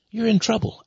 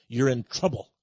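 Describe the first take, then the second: First: You're IN trouble, with "in" pushed higher; "You're in trouble" with "in" stressed and raised. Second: Said in the usual way. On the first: Real, not acted. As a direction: hit "in" as the warning comes back sharper. Repeats warning with more force.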